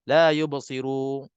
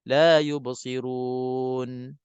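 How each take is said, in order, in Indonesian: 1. Nafas berhenti lebih awal dan bunyi nun akhir dihilangkan. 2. Bunyi nun akhir terdengar, lalu nafas berhenti dengan bersih. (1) "Jangan tahan sebelum nun mati. ... Nun mati tu hilang pula" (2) "Biar ada sifat nun mati dulu"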